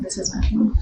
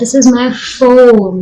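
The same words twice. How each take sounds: First: The word this carries the stress. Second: The word phone carries the stress. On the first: This particular phone and not another one. "This one, not that one" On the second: It is a phone and not some other object. "It's not my keyring, it's not my earring, it's my phone"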